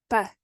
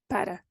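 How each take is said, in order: First: PA as one short syllable; clipped preposition "pa"; reduced para. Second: PARA in two syllables with a tapped r; careful full form "para". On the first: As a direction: say "pa" with a short muted vowel, no r. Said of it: "para becomes pa". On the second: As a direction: say "para" unreduced, r audible. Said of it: "instead of". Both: Shown as a demonstration.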